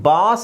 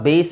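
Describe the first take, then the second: First: The vowel is an open 'ah' sound. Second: The vowel is an 'ay' sound. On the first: The speaker calls it wrong. "ಇದು ಬಾಸ್ ಆಗಲ್ಲ" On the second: The speaker calls it right. "ಬೇಸ್ ಆಗುತ್ತೆ"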